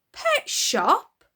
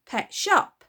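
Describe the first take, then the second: First: High, loud disbelieving question; hammed-up stunned father; shocked echo. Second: Put-on loud, blunt girl answer; a hint of surly child; offhand girl. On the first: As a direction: echo it in horror. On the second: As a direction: toss it off carelessly.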